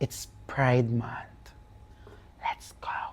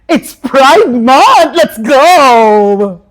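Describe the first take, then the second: First: It sounds playful and flirty. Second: It sounds cheerful and supportive.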